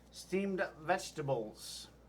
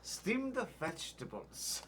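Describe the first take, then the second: First: It is said in his normal voice. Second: It is said in a put-on Asian accent.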